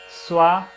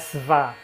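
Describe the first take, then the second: First: The consonant after s sounds like w. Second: The consonant after s sounds like v. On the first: The speaker calls it right. "o V, sempre que for seguido de outra consoante, ele vira som de U" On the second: The speaker calls it wrong. "Swa não é Sva"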